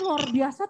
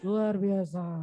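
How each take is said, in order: First: It is said with lively, varied pitch. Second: It is said flat, like reading text. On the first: It sounds genuinely enthusiastic. The speaker calls it right. "Harusnya luar biasa tuh" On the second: It sounds merely read off the page. The speaker calls it wrong. "Itu kalau nadanya itu, kalau tulisan"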